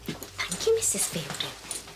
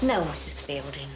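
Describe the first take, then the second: First: Soft thanks dropping low at the name; mock gratitude. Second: Low, sullen reply; mock obedience. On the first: Assistant thanks Missus Fielding, mock grateful. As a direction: parody servile thanks under your voice. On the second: Assistant replies to Missus Fielding, mock obedient. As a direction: answer with grudging, lowered politeness.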